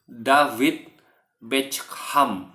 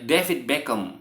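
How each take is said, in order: First: The name is said with an Indonesian accent. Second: The name is said with a Western English accent.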